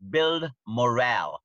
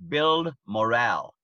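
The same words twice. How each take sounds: The two takes are said the same way.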